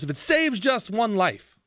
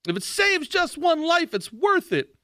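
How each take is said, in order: First: Said in the usual way. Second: Mock scold. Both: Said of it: "they were yelling at us".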